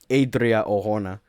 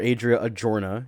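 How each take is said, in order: First: The name is said with a Spanish-style pronunciation. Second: The name is said with an English-style pronunciation. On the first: This is the name's proper pronunciation. The speaker calls it right. "the correct pronunciation is" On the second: This is how non-Spanish speakers say it. The speaker calls it wrong.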